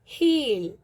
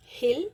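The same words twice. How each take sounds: First: हील with a long drawn ई; long ee in heel. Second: हिल with a short इ; हिल, quick and short; short i in hil. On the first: Teacher showing students the long ई in हील. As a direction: draw out the ई in हील. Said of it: "बड़ी ई की मात्रा". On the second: Teacher contrasting हिल with a short इ. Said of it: "छोटी ई की मात्रा". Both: Shown as a demonstration.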